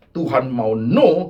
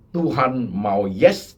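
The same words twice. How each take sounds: First: "no" slow and louder, falling; slow falling emphatic "no"; stress on no. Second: "yes" drawn out slowly, rising; stress on yes. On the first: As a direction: land "no" firmly, dropping. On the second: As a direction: linger on "yes" with a lift. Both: Shown as a demonstration. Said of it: "yes and no contrast".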